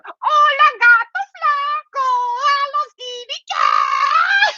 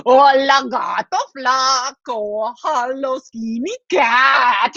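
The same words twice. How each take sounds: First: Very high, drawn-out squeal; sister mouse taunt. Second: Drawn-out sing-out call; brother mouse taunt. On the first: Sister mouse copies her brother teasing the cat, high squealed taunt. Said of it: "and she goes". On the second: Brother mouse teases the sleeping cat through the fence, drawling taunt. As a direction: stretch each phrase into a slow taunt. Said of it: "He goes". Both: Acted.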